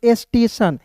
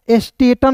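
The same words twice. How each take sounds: First: "स्टेशन" with TION as a soft sibilant; "स्टेशन" ending in "san", no second T; correct reading. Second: "स्टेटन" with a second hard T; wrong reading. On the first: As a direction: model "स्टेशन" clearly. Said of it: "इसे पढ़ेंगे स्टेशन". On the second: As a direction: read "स्टेटन" ending in "tan". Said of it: "स्टेटन नहीं पढ़ेंगे". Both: Shown as a demonstration.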